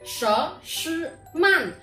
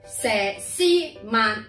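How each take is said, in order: First: The name is pronounced with Mandarin sounds. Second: The name is pronounced with Cantonese sounds. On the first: "普通话读所思慢" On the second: "粤语读蛇丝慢"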